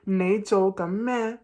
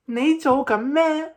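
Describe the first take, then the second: First: The whole phrase is at normal pitch. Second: The whole phrase is at higher pitch. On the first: A plain question. "instead of saying" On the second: The speaker is surprised. "I will make my whole voice become higher"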